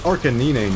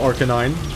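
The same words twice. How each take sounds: First: The name is said in an altered form. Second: The name is said in its standard form. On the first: This is a different creature. "That's Arcanine now. Different guy" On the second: This is the familiar creature. "you know Arcanine"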